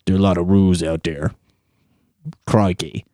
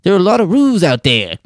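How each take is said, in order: First: Low-key mock Australian accent. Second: High, hammed-up Australian accent. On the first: Shown as a demonstration. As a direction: do a put-on Australian accent, unexcited. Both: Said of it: "that's my Australian accent".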